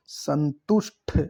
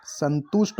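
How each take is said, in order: First: Slow "संतुष्ट" ending in aspirated th; "संतुष्ट" with a breathy released ending; wrong pronunciation. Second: "संतुष्ट" with plain final t; no aspiration at the end of "संतुष्ट"; correct pronunciation. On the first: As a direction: sound out "संतुष्ट" as san-tush-tha. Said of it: "ठ नहीं, ट". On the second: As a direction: say "संतुष्ट" as santusht. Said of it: "संतुष्ट होता है". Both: Shown as a demonstration.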